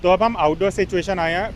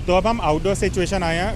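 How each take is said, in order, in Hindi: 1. Outdoor background noise आवाज़ के आसपास से फ़िल्टर होकर हट जाता है। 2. आउटडोर बैकग्राउंड नॉइज़ आवाज़ के आसपास सुनाई देता है। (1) "अब ऑन करके एक बार डिफरेंस सुनते हैं।" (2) "पहले मैंने नॉइस कैंसिलेशन ऑफ रखा है"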